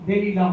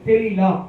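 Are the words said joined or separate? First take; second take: joined; joined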